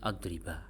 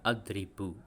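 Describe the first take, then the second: First: The word ends with an 'a' vowel. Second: The word ends with a 'u' vowel. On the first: A particle meaning 'never' governs the verb. "Kalau kemasukan lan menjadi adriba" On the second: No particle governs the verb. "dia dibaca adribu seperti ini ... makanya dia tetap dhammah"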